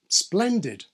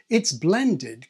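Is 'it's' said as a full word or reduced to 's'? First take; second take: reduced; full word. First: The word it's is reduced to a bare s. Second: The word it's is said in full.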